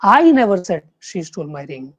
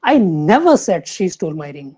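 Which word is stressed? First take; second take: I; never. First: The stress falls on the word I. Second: The stress falls on the word never. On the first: Someone else said it. "अगर आप first जो word है उसको आप stress देंगे" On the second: It was never said at all. "Second"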